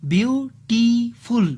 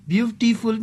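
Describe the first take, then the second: First: Beautiful stretched slowly as beau, ti, ful; syllable by syllable. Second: Said in the usual way. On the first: Shown as a demonstration. Teacher demonstrating three breaks in airflow, beautiful said syllable by syllable. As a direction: pull beautiful apart into three higher-pitched beats. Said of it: "while pronouncing this word". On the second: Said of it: "means three syllables".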